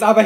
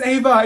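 First: "Ava" with an AH first vowel; mispronounced name. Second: "Ava" with a long AY first vowel; corrected name. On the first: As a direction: say "Ava" as AH-vuh. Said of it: "It's Ava. It's three letters". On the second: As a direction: say "Ava" as AY-vuh, higher. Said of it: "It's three letters". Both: Acted.

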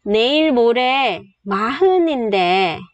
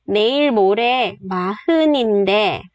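First: Breathy whispered Korean line. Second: Said in the usual way. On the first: Shown as a demonstration. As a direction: say it in a whisper, almost no voice. Teacher models Korean sentence.

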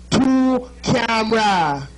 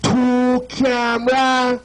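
First: "Two camera" drawn out slowly in a Jamaican accent. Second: "Two camera" slowed right down, a little higher, Jamaican accent. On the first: Teaching the crowd a Jamaican phrase, slow Jamaican accent. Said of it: "That's your first Jamaican lesson". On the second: Telling the crowd how to greet him, slow Jamaican accent. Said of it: "you say". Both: Shown as a demonstration.

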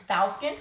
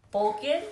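First: Balkan said as "BAL-kin", rising; first vowel as A. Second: Balkan said as "BOL-kin", rising; first vowel as O. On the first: Woman trying out how to say it, Balkan as "BAL-kin". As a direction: try Balkan with the short A of "pal". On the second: Woman trying out how to say it, Balkan as "BOL-kin". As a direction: try Balkan with a round O, like "bowl-kin". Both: Shown as a demonstration. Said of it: "if I say it wrong, my bad".

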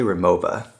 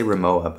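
First: "Rimowa" in German style, w turned to v; actual pronunciation. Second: "Rimowa" as many people say it, ending in -wa; common mispronunciation. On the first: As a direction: say "Rimowa" with a v sound, ri-MO-va. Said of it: "but it's actually Rimowa". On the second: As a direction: say "Rimowa" with an English w, ri-MO-wa. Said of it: "a lot of people say". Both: Shown as a demonstration.

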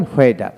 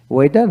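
First: হোয়েডার begun with an audible h; sounded H. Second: ওয়েডার begun with a plain w. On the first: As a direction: say হোয়েডার as "hweidar". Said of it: "ব্রিটিশে হ উচ্চারিত হয়". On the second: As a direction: say ওয়েডার as "weidar". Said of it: "আমেরিকানে অ উচ্চারিত". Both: Shown as a demonstration.

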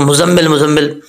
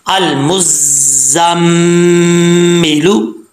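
First: मुज़म्मिल quick, single short z; common wrong reading. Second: अल मुज़म्मिलू very slow, z and humming m held; correct recitation. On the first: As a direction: say मुज़म्मिल casually without holding. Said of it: "जिसको अक्सर लोग". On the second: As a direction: chant मुज़म्मिलू with a long mm. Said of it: "तो इसको कैसे पढ़ेंगे". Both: Shown as a demonstration.

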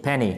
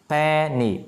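First: Said in the usual way. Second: "Penny" stretched into two separate syllables, pen-ny. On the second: Shown as a demonstration. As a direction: teach "Penny" drawn out, each syllable held. Teacher splits word into syllables.

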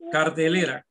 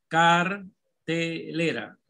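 First: Said in the usual way. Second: Cartelera very slow, in separate syllables. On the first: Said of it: "¿Cuál es la sílaba tónica?". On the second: Shown as a demonstration. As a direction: dictate "cartelera" as car, te, lera with gaps. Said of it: "La van a dividir en sílaba".

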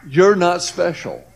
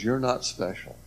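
First: Slow, louder, each word weighted: "You're not special"; God telling the speaker plainly he is not special; God's firm verdict. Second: Recalling God's words in a hushed voice; quiet remembered verdict. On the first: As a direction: lay "You're not special" down slowly and firmly, a bit higher. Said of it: "he was letting me know". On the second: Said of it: "where God says". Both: Retold or imitated.

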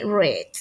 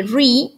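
First: "read" with a short e, like "red"; short e sound on "read"; past-tense "read". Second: "re" with a long ee, final d dropped; long ee sound on "re"; present-tense "read". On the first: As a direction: say "read" as "ret". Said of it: "Y en pasado se lee". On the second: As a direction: say "re" as "ree". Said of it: "En tiempo presente se lee". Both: Shown as a demonstration.

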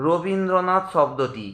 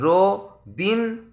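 First: Said in the usual way. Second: Rabindranath said slowly in four stressed beats, slightly raised; syllable by syllable. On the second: Shown as a demonstration. Teacher showing students four beats in Rabindranath. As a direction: break Rabindranath into four slow pulses. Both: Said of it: "চারবার ঝোঁক পড়বে".

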